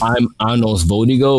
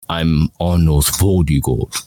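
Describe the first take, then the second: First: The voice is lighter and less dominant. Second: The voice is deeper and more dominant. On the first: This is the character's old voice. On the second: This is the character's new voice.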